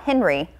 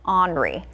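First: The name sounds like the English name Henry. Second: The name does not sound like English Henry. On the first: The speaker calls it wrong. "So not Henry" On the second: The speaker calls it right. "I looked up the pronunciation. This is going to be Henri"

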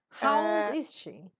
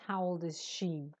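First: The stress falls on a word before 'she'. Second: The stress falls on the word 'she'. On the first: The speaker calls it right. "Both are correct" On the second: The speaker calls it wrong. "But not how old is she. No, don't put the stress on she"

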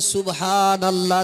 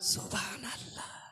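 First: The phrase is said loudly and fully voiced. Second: The phrase is said quietly, barely voiced. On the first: The person praises with enthusiasm. The speaker calls it right. "কেউ জোরে বলছে" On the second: The person is hesitant to praise aloud. The speaker calls it wrong. "আর কেউ বলছে সুবহানাল্লাহ, আওয়াজই বেড়াই না"

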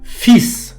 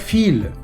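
First: The word ends with an s sound. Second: The word ends with an l sound. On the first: The speaker calls it right. "читається так «фіс»" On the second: The speaker calls it wrong. "не може читатися як «філь»"

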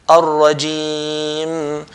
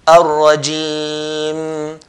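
First: The word ends on a held m. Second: The word ends on a held m.

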